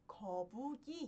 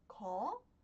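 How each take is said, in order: First: The final consonant carries into the next syllable. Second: The syllables are said separately with breaks. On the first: The speaker calls it right. "eu pronuncio como kobugi" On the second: The speaker calls it wrong. "ao invés de pronunciar como ko, pu, i"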